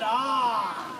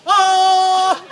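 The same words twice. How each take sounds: First: Mild surprise. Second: Loud, sharp shocked "Ah!"; shocked gasp. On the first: Reader settling on the visitors' surprised "Ah.". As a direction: breathe "Ah." with gentle surprise. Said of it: "Let's go with surprise". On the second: Reader trying out a loud shocked visitors' "Ah!". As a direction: blurt "Ah!" as a startled yell. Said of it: "How about in they walked and they were like". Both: Shown as a demonstration.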